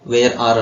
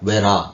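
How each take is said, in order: First: The two words are said fully and separately. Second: The two words are run together and reduced. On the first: "where are ಅನ್ನೋದನ್ನ" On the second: "where are ಅಂತ ಹೇಳಿ"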